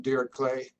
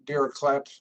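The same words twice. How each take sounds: First: Dirichlet ending in "klay", silent t; alternative pronunciation. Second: Dirichlet ending in a hard "klet"; alternative pronunciation. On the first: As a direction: say Dirichlet as "DEER-ik-lay". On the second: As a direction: say Dirichlet with a sounded final t, "DEER-a-klet". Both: Shown as a demonstration. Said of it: "do you pronounce it Dirichlet?".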